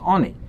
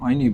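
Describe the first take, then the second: First: The first vowel is a plain 'o'. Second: The first vowel glides like 'oy'. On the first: It is the bread of a poor person. "it can be pronounced also as Oni" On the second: It is a bread over which things are declared. "even though we pronounce it Oini"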